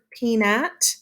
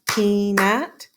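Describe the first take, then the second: First: Said in the usual way. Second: "peanut" slowly in two separate beats; split into syllables. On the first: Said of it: "when we go to this word". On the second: Shown as a demonstration. Teacher showing pupils two syllables, "peanut" slow and divided. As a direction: stretch out "peanut" one syllable at a time. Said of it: "two syllables".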